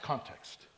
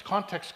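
First: Context breathed out as a soft whisper; whispered echo. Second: Said in the usual way. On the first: Shown as a demonstration. Preacher repeating context to his congregation, fading to a whisper. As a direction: let context fade into a whisper. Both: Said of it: "Everything is about context".

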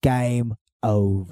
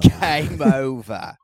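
First: Slow announcer. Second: Slow, louder, laughing "Game over"; laughing echo of "Game over". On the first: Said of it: "repeated line". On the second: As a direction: repeat it through a laugh. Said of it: "repeated, laughing". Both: Acted.

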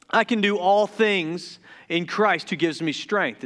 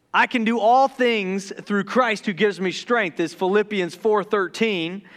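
First: Rushed, tripping verse reading; garbled fast quote of the verse; excited rush. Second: Careful, deliberate retake of the verse; calm measured quote of the verse; slowed down. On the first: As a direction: hurry through it too excited to land it. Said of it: "I'm stuttering a lot". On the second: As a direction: reset and say each word clearly. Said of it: "Let me slow down". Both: Real, not acted.

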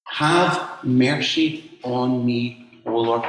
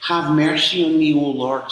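First: Slow, lingering echo of the plea; slow reflective. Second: Pleading. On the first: Acted. Preacher echoing the woman's cry, slow and reflective. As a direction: let the words sink in, slowly. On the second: A narrator's reading. Woman begging Jesus to save her daughter, pleading. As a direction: cry out to the Lord for help.

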